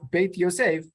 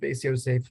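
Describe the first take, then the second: First: The first word ends with a t sound. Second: The first word ends with an s sound. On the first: "he surely pronounced his work Beit Yosef"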